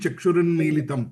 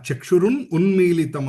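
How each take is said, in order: First: The two words are joined into one. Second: The two words are said separately. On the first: "అది కలిపి" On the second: "చక్షురున్ ఉన్మీలితం అన్నమాట"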